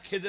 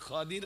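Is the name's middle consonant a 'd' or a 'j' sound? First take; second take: j; d. First: The name is said with an 'e' and 'j' sound. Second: The name is said with an 'a' and 'd' sound. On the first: This is the familiar local form of the name. "আপনারা খেজর আলাইহিস সালাম বলেন না?" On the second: This is a different, less familiar form of the name. "আমি সেই নামটা একটু অন্যভাবে বলছি"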